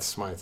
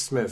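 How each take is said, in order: First: The vowel sounds like 'eye', as in scythe. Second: The vowel sounds like 'ih', as in with. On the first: The speaker calls it wrong. "everyone always pronounces that Smythe" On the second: The speaker calls it right. "It's Smith"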